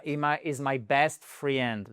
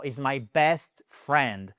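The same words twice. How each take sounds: First: "friend" said as "fri-end"; teacher showing the mistake; wrong friend. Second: Slow, "friend" said as "frend"; teacher correcting the mistake; right friend. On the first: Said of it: "Ça ne sera jamais". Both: Shown as a demonstration.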